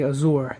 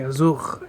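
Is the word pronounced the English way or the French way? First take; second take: English; French. First: The word is pronounced the English way. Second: The word is pronounced the French way. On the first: The speaker calls it wrong. "they don't say Azure" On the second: The speaker calls it right. "they say Azure. It's France"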